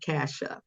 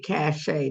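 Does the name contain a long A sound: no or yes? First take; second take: no; yes. First: The name is said without a long A sound. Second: The name is said with a long A sound. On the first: The speaker calls it wrong. "not Casha" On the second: The speaker calls it right. "So it's long A"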